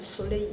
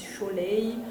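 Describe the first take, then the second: First: The first sound is a plain s. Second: The first sound is a sh sound. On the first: The speaker calls it right. "à la place de soleil" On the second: The speaker calls it wrong. "ils disent choleil"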